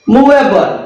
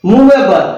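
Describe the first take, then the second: Both takes have the same delivery.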